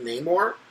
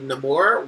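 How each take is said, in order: First: The name is said with an English-sounding pronunciation. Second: The name is said with a Spanish-sounding pronunciation. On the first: This is the comic book version of the character. "he has a more Anglican sounding name" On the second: This is the film version of the character. "he would have a more Spanish sounding name"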